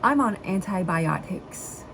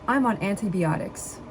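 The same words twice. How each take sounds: First: The word antibiotics is pronounced slowly and carefully. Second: The word antibiotics is pronounced quickly and garbled. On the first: The speaker calls it right. "I have to like think about what I'm saying when I say that word" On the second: The speaker calls it wrong. "Let me just try it naturally"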